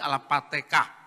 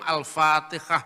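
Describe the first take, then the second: First: It is said with Javanese-accented Arabic sounds. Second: It is said with standard Arabic sounds.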